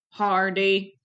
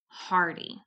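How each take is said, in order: First: The word is said in a robot voice. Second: The word is said in a normal voice. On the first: "Can you robot voice it?" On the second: "Say the word hardy with me"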